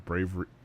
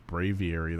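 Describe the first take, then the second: First: The name is said with three syllables, like bravery. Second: The name is said with four syllables, brave-ee-air-ee. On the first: The speaker calls it wrong. "Have I been pronouncing this thing wrong? I could have sworn it was Bravery" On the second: The speaker calls it right. "I think it's Braviary"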